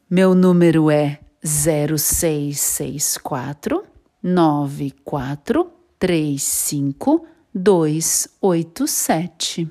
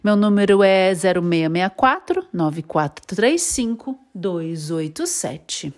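First: The number is said more slowly. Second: The number is said at normal speed.

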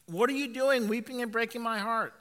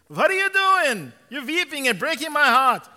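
First: It is read in the speaker's plain voice. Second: It is read in a put-on Jewish accent.

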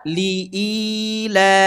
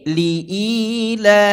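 The two takes are said the same way.

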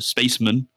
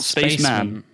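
First: The stress is on the first part, space. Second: The stress is on the second part, man. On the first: "put emphasis on the first word. So spaceman" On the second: "not spaceman"

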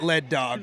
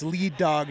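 First: Lead is said with a short e vowel. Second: Lead is said with a long ee vowel. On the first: The speaker calls it wrong. "not Lead Dog" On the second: The speaker calls it right. "we now know it's Lead Dog"

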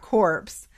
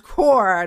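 First: The final P and S sounds are pronounced. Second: The final P and S sounds are silent. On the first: The speaker calls it wrong. "did you just pronounce the PNS?" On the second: The speaker calls it right. "It's corps"

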